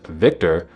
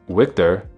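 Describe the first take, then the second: First: The first sound is a V sound. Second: The first sound is a W sound. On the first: "instead of Victor" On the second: "pronounce a V like a W"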